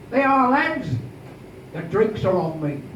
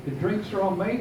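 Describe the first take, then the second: First: Loud announcement. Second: Said in the usual way. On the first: Acted. Underwood announces to a hundred sailors the drinks are on him, loud. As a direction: boom it across the room. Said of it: "with a loud voice he says". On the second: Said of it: "You can imagine what those words meant".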